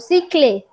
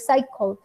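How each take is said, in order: First: The final e is pronounced aloud. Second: The final e is not pronounced. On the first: The speaker calls it wrong. "yo no digo cicle" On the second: The speaker calls it right. "yo digo cycle. Y cuando yo digo cycle, la E no suena"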